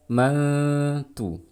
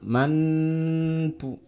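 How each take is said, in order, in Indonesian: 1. Huruf n tersembunyi dalam bunyi sengau. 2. Huruf n dibaca jelas dengan dengung panjang. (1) "tapi ma mantu gitu ya" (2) "jangan mantu ya, salah"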